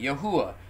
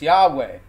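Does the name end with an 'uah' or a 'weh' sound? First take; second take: uah; weh. First: The name ends with an 'uah' sound. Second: The name ends with a 'weh' sound. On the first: The speaker calls it right. "It's Yod-Heh-Uah-Heh" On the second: The speaker calls it wrong. "they pronounce it like this"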